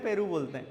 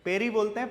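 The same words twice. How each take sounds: First: पेरू with an oo ending, settled; PERU with final oo. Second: पेरी with an ee ending, rising; PERI with final ee. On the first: Teacher confirming the local word for guava to students, PERU with final oo. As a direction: say पेरू ending in a long oo, falling. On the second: Teacher checking the local word for guava with students, PERI with final ee. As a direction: say पेरी ending in a long ee, as a question. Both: Shown as a demonstration.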